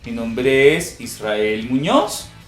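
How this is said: The voice rises at the end.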